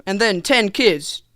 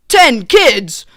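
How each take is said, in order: First: Said in the usual way. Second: Loud, raised double take; hammed-up astonishment; mock disbelief. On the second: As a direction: blurt it out, appalled at the number. Repeats it in comic disbelief.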